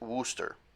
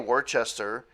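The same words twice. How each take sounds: First: The name is said in a shortened local form. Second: The name is said fully, as it is spelled. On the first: This is how the locals say it. The speaker calls it right. "They pronounce it Worcester" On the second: This is an outsider's reading of the spelling. The speaker calls it wrong. "if you say Worcester, they massacre you"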